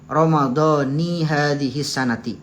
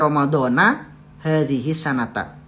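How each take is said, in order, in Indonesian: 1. Kata-kata itu berakhir dengan vokal 'i'. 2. Kata-kata itu berakhir dengan vokal 'a'. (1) "jadi yang benar itu" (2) "beliau katakan ini sebagai bacaan yang yang keliru"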